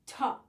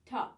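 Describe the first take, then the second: First: "ta" hit hard with a sharp tongue attack; harsh ta. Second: "Ta." pushed with breath, not tongue; breathy ta. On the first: Teacher shows the wrong harsh attack, a hard "ta". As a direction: spit out "ta" harshly. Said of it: "you don't want to articulate a ta". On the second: Teacher shows the right attack, "Ta." carried on breath. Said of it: "more breath behind that attack". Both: Shown as a demonstration.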